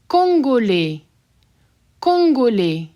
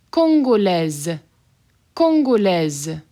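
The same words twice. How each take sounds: First: Congolais with silent final S; masculine form. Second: Congolaise slow with a Z ending. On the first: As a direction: end Congolais on open e. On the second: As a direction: sound out the Z in Congolaise. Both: Shown as a demonstration. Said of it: "Pronounce that S as a Z".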